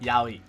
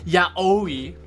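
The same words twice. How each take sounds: First: The A and O blend into one 'ow' sound. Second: The A and O are said as separate vowels. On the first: The speaker calls it right. "you combine the A and the O together to make an ow sound" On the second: The speaker calls it wrong. "It's not pronounced yaoi"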